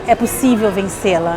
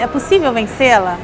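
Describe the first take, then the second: First: It is said with a firm statement tune. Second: It is said with a questioning tune. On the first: It affirms that it can be overcome. "mas o final é" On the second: It asks whether it can be overcome. "o tom era início de uma seria de uma indagação"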